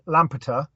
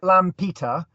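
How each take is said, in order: First: The word is said at a quick pace. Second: The word is said at a slow, careful pace. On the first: "and then say it quickly" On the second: "if you pronounce it Lampeter"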